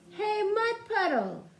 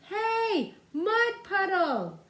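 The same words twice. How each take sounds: First: It is yelled at a normal level. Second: It is yelled even louder.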